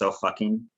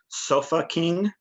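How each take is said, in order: First: It is said quickly, running the words together. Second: It is said at a normal, unhurried pace. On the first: It sounds like a swear phrase. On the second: It is the name of a band.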